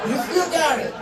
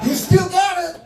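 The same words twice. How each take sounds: First: High put-on boxer voice; Tyson impression again. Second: High put-on boxer voice, a touch louder; Tyson impression. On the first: Comic repeats the boxer's line in his high voice. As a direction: echo the champ, high. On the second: Comic praises the boxer in his voice, high and put-on. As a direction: do the champ's high voice. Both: Imitating Mike Tyson after video.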